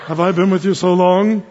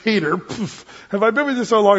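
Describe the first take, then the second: First: Mock-solemn stern Jesus, evenly measured; beady-eyed movie Jesus. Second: Playful ribbing between pals, quicker and lifted; joking Jesus. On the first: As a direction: imitate a humorless Jesus reproaching a disciple. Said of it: "beady eye Jesus kind of look over". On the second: Retold or imitated. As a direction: tease a friend with a light shove. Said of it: "pushes him on the shoulder".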